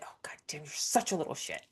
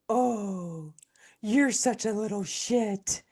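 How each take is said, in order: First: It is said in an annoyed, angry tone. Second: It is said in a sweet, affectionate tone.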